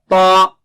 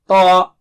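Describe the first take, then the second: First: The lips stay unrounded; thickness is inside. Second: The same.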